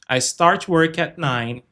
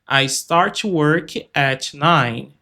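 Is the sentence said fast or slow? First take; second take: fast; slow. First: It is said fast, with the T held back. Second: It is said slowly, with the T heard. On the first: "Eu prefiro falar mais rápido" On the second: "se for mais pausado"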